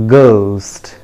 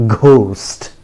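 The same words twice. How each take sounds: First: "ghost" with a plain hard g, drawn out; careful falling "ghost", unaspirated g; correct pronunciation. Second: "ghost" with a breathy gh; wrong pronunciation. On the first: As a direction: model "ghost" for repeating, no h sound. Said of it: "Repeat after me". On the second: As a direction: demonstrate the mistaken "ghost", puffing an h after g. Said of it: "That is a wrong pronunciation". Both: Shown as a demonstration.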